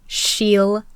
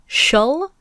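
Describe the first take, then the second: First: It has a full long 'ee' vowel. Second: It has a reduced 'uh' vowel.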